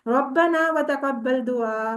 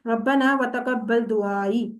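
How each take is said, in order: First: The last word ends on a plain 'ah' sound. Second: The last word ends with an added 'ee' sound. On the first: The reciter stops after this word. "हम दुआ करके रुक जाते हैं" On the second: The word is read in full without stopping. "अगर हम इसको लफ्ज को पूरा पढ़ें"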